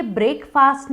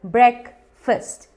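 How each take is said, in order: First: ब्रेकफास्ट as "brake-faast", long vowels; wrong pronunciation. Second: ब्रेकफास्ट as "brek-fust", both vowels short; two slow syllables in ब्रेकफास्ट, "brek... fust"; correct pronunciation. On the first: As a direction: say ब्रेकफास्ट like "break" plus "fast". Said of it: "ब्रेकफास्ट नहीं है". (ब्रेकफास्ट को "ब्रेक-फ़ास्ट" बोलें) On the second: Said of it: "ये है simple". (ब्रेकफास्ट को धीरे "ब्रेक-फ़स्ट" बोलें, छोटे स्वर) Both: Shown as a demonstration.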